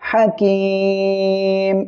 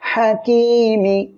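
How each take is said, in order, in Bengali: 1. শব্দটি একটি স্বরহীন ব্যঞ্জনে শেষ হয়। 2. শব্দটি একটি হ্রস্ব স্বরে শেষ হয়।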